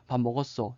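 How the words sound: It is said with statement intonation. The speaker is answering that someone ate. "이러면 대답하는 거잖아요"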